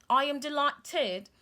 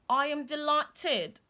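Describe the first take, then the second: No difference in how they are said.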